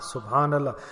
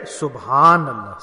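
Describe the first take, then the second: First: SubhanAllah said much softer, falling away. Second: SubhanAllah drawn out slowly and low. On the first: Preacher repeating it softly for the listeners to echo. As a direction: let SubhanAllah fade to a soft hush. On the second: Preacher showing the congregation how to say it, slowly. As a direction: stretch SubhanAllah out, slow and settled. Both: Shown as a demonstration.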